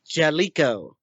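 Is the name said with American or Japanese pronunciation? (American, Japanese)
American. The name is said with American pronunciation. This is how it is usually said in the States. "normally how we say it over here in the States"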